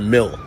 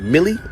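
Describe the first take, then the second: First: The name is said with one syllable. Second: The name is said with two syllables. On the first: "I don't know if you call it Millie or Mill" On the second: "I don't know if you call it Millie or Mill"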